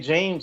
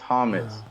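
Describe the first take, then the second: First: The name is said with English sounds. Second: The name is said with Spanish sounds. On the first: The speaker calls it wrong. "I used to say James" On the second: The speaker calls it right. "It's Hamas, man. ... You have to pronounce it like in Spanish"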